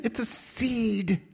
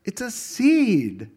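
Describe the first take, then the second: First: "seed" drawn out and falling; stress on seed. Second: "seed" slow, louder and falling; stress on seed. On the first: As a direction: lean on "seed", let it fall slowly. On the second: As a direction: hit "seed" hard and slow. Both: Shown as a demonstration. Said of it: "repeated for emphasis".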